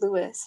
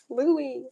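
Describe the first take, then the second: First: The name ends with an audible S sound. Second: The name ends without any S sound. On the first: The speaker calls it wrong. "She like there's an S" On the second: The speaker calls it right. "It's silent. Like you don't say it"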